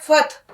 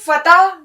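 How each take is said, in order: First: The word has one syllable, closed after the t. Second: The word has two syllables, with a vowel after t. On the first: The speaker calls it right. "ये फत है, फत" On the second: The speaker calls it wrong. "ये फतह नहीं है"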